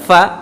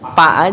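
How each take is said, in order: First: It begins with an f sound. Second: It begins with a p sound. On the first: The speaker calls it right. "Bagaimana dia dari mana keluarnya?" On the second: The speaker calls it wrong. "apalagi Sunda nih lumayan gitu. Pa aja gitu"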